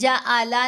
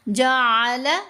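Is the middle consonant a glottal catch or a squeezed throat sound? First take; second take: glottal catch; throat sound. First: The middle consonant is a plain glottal catch. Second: The middle consonant is a squeezed throat sound. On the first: The speaker calls it wrong. "नहीं पढ़ना, वो हमज़ा की आवाज़ है" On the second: The speaker calls it right. "आइन को गले से अदा करना है"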